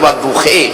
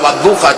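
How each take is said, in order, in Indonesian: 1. Kata ini berakhir dengan vokal 'e'. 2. Kata ini berakhir dengan vokal 'a' terbuka.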